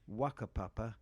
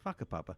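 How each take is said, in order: First: It is said with an anglicized pronunciation. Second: It is said with the Maori pronunciation. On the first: It avoids offending listeners. "safer to say Whakapapa or Wakapapa" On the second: It is the authentic local form. "the correct Maori pronunciation is"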